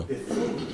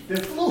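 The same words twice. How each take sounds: First: Said in the usual way. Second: Much higher, mocking repeat. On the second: Shown as a demonstration. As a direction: toss it off high and mocking.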